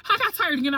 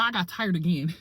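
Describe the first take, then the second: First: Laughing. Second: Said in the usual way. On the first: Real, not acted. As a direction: laugh through the whole line.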